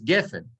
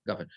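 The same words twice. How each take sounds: First: "gefen" with an eh first vowel, GEH-fen; unchanged vowel. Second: "gafen" with an ah first vowel, GAH-fen; changed pausal vowel. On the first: Teacher showing the normal word form, "gefen" with eh. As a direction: say "gefen" with a short e. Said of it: "The word is gefen". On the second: Teacher showing the sentence-end form, "gafen" with ah. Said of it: "it becomes gafen". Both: Shown as a demonstration.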